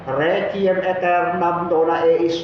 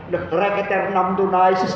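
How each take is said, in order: First: The words are grouped and broken at natural points. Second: The words are clipped and run together oddly. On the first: The speaker calls it right. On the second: The speaker calls it wrong.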